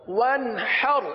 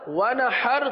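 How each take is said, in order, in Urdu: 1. نون قلقلے کی گونج کے بغیر صاف ہے۔ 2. نون قلقلے کی گونج کے ساتھ ادا ہوتا ہے۔ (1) "قلقلہ نہیں کرنا" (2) "غلط ہو جائے گا کیونکہ نون پر قلقلہ ہو جائے گا"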